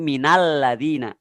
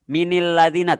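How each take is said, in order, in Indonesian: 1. Min terhubung ke ladina dengan vokal a. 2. Min terhubung ke ladina dengan vokal i.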